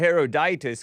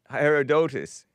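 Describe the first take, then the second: First: The third syllable has an 'ih' vowel. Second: The third syllable has an 'o' vowel. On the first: The speaker calls it wrong. "I was pronouncing it Herodotus because I thought it had an I" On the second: The speaker calls it right. "but it's O"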